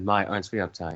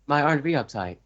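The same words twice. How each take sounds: First: It is said at a lower pitch. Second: It is said at a higher pitch.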